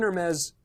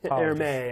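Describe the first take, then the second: First: The name is pronounced in an English way. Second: The name is pronounced in a French way.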